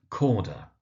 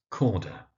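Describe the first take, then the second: No difference in how they are said.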